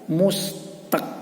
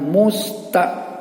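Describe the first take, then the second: First: The word ends in a clear k sound. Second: The word ends in a glottal stop. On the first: The speaker calls it right. "Kalau kaf yang berbaris mati itu bacanya mustaq" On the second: The speaker calls it wrong. "Musta itu berarti hamzah berbaris mati"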